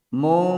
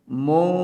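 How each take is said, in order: The two takes are said the same way.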